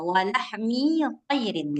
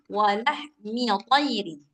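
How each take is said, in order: First: The vowel in 'mi' is drawn out long. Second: The vowel in 'mi' is kept short. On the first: The speaker calls it wrong. "jadi mi-nya ini dibaca panjang" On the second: The speaker calls it right.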